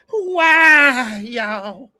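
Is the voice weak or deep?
deep. It is said in a deep, strong voice.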